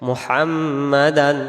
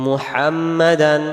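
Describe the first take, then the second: The two takes are said the same way.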